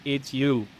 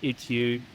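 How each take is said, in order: First: "it's you" with a mild American twang; American accent. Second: Said in the usual way. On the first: Shown as a demonstration. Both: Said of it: "as, as an American".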